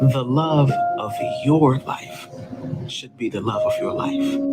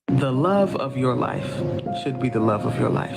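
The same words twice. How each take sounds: First: The stress falls on the final word life. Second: The stress falls on the final word love.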